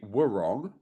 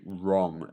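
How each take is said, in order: First: The word starts with a W sound before R. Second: The word starts with just an R sound. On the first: The speaker calls it wrong. "we don't say" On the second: The speaker calls it right. "we say wrong, as in R, like just an R"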